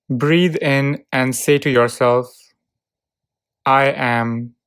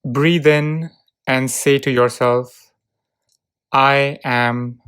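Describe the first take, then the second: No difference in how they are said.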